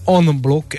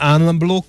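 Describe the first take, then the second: First: The first vowel is nasal and lengthened. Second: The first vowel is plain and short. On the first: The speaker calls it right. "Nazális nyújtott a" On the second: The speaker calls it wrong. "nem unblock"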